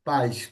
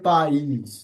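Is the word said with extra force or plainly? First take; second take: plain; forceful. First: The word is said plainly without extra stress. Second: The word is said with extra stress. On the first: It means parents. "কোনো ফোর্স দেই নাই আমি এখানে" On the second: It means country. "ওইটা হচ্ছে পাইস"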